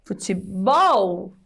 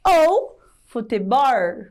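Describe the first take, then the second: First: "Futebol" slow, ending in a clear L; "Futebol" devagar, com L; correct futebol. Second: "futebol" ending in a rolled R, slow; "futebol" com R caipira. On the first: Shown as a demonstration. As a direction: say "Futebol" properly with L. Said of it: "no lugar de futebol, seria o correto". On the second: Retold or imitated. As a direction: say "futebol" as "futibór". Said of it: "o Chico Bento ia falar futebol".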